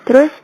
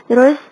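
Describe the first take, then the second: The two takes are said the same way.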